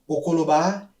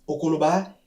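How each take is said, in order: The two takes are said the same way.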